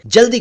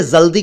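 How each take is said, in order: First: जल्दी said as "jaldi"; correct j sound. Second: जल्दी said as "zaldi"; wrong z sound. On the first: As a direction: begin जल्दी with a j, not z. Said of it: "जल्दी कहा करें". (जल्दी का सही उच्चारण, ज से) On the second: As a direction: begin जल्दी with z instead of j. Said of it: "न कहा करें". (जल्दी का ग़लत उच्चारण, ज़ से) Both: Shown as a demonstration.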